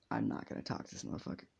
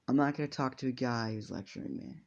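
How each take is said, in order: First: Fast whispered refusal; a quick, muttered refusal under the breath. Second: Said in the usual way. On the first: Acted. Zuko's inner refusal.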